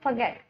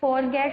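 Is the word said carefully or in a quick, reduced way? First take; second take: reduced; careful. First: The word is said quickly in a reduced form. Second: The word is said fully and carefully. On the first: "spoken में जब आप fluently ये sentences use कर रहे हैं" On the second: "जब pronounce करते हैं तो फॉरगेट बोलते हैं"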